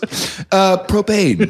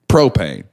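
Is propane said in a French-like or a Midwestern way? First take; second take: French-like; Midwestern. First: The word is said in a fancy French-like way. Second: The word is said in a plain Midwestern way. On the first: It sounds like a fancy dessert or wine. The speaker calls it wrong. "it's like a French dessert" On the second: It sounds like an ordinary local fuel. The speaker calls it right. "You've lived in the Midwest long enough. You gotta do"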